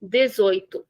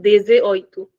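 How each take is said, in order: First: Dezoito as one smooth word; smooth correct dezoito; correct version. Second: Dezoito broken with an extra e; the mistaken dez-e-oito; wrong inserted vowel; wrong version. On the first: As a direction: say it the right way, no extra vowel. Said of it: "eighteen is dezoito". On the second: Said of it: "It is not". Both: Shown as a demonstration.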